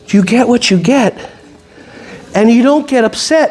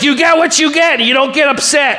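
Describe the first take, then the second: First: It is said in a calm, gentle tone. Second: It is said in an irritated, sharp tone. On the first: The rule is given kindly and patiently. "Do you say it like this? My dear" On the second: The speaker is frustrated and annoyed. "you're thinking about your spouse"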